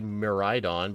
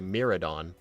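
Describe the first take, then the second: First: The middle of the name sounds like 'ride'. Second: The middle of the name sounds like 'rad'. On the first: This is how the speaker says it. The speaker calls it right. "that's how I say Miraidon" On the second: This is how some other people say it. The speaker calls it wrong. "apparently some people say Miradon, which doesn't really make sense"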